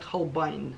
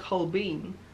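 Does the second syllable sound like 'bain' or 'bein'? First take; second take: bain; bein. First: The second syllable sounds like 'bain'. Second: The second syllable sounds like 'bein'. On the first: This is the English way of saying it. The speaker calls it right. "по-английски говорят Холбайн" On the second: This is the usual Russian way of saying it. The speaker calls it wrong. "в России говорят Холбейн"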